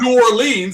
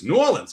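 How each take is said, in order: First: The name is said in full, every syllable. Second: The name is shortened, with syllables run together. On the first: The speaker calls it wrong. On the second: The speaker calls it right. "we don't have time to say the whole words"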